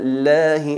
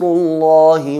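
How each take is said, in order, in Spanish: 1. La L es fina, con la lengua baja. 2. La L es gruesa, con la lengua elevada hacia atrás. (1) "aquí es atenuada" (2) "aquí es enfatizada"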